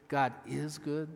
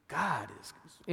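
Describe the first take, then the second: First: "is" drawn out in "God is good"; slow down and lean on "is"; stress on IS. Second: "God" stretched long at the start; stress on GOD. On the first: Pastor recalling a congregational exercise, stressing "is". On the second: Pastor recalling a congregational exercise, stressing "God". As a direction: linger on "God", then move on. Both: Shown as a demonstration. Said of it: "putting a different emphasis on each word".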